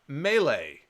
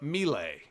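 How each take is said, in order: First: Melee is pronounced the ordinary, everyday way. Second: Melee is pronounced an unusual, imitated way.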